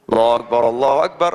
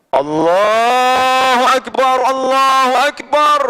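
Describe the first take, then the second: First: Said in the usual way. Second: Sung, loud, high, hugely drawn-out call; sung, thunderous takbir. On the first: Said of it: "Ada seorang raja itu punya muadzin". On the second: Acted. Sufi proves the mosque will crack, booming slow chant. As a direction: chant it out slowly at full power. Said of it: "saya akan buktikan".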